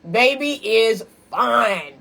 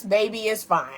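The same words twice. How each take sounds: First: "fine" stretched out long and slow; slow admiring emphasis on "fine"; emphatic FINE. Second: Said in the usual way. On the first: Real, not acted. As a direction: savor the word "fine", drawing it right out. Repeats praise of crush for emphasis.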